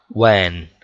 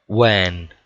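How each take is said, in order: No difference in how they are said.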